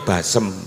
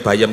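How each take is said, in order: First: The middle consonant is an s sound. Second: The middle consonant is a y sound. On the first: This is how people from the local dialect area say it. "dialeke nek muni bayem ki basem" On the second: This is the usual way of saying it. "nek muni bayem"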